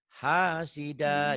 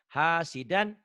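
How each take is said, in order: First: The word ends with a vowel. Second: The word ends with an n sound. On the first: The reading stops at the word. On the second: The reading continues past the word.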